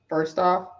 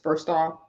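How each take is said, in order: First: It is said in her normal voice. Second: It is said in a put-on man's voice.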